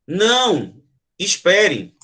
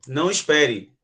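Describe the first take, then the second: First: "Não," set apart with a clear break before "espere"; a firm "Não," then a pause, "espere"; pause after não. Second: "Não espere" run together, low and falling; "Não espere" as one smooth dismissive phrase; low, flat warning with no break: "Não espere"; no pause. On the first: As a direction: stop someone leaving: "Não," pause, "espere". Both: Shown as a demonstration. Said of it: "Consegue entender a entonação?".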